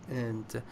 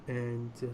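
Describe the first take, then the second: No difference in how they are said.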